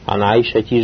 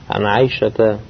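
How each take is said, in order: First: The name ends with an 'i' vowel. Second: The name ends with an 'a' vowel. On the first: The speaker calls it wrong. "Ана Айшати же не говорите же" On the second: The speaker calls it right.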